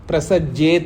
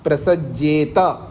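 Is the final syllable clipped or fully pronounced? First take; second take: clipped; fully pronounced. First: The final syllable is clipped short. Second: The final syllable is fully pronounced. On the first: The speaker calls it wrong. "प्रसज्जेत नहीं है" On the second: The speaker calls it right. "ता पूरा है"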